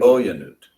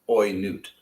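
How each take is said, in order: First: A separate short 'ya' syllable follows the first vowel. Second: The first vowel glides straight into the next syllable. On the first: The speaker calls it right. "We kind of have to pronounce that shava" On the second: The speaker calls it wrong. "Otherwise, it's oi note... And that's not the word"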